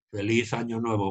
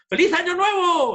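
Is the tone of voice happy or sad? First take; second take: sad; happy. First: It is said in a low, gloomy tone. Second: It is said in a high, joyful tone. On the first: The speaker is downcast. The speaker calls it wrong. "A nadie se le ocurre decir" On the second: The speaker is celebrating. The speaker calls it right. "cuando estás feliz"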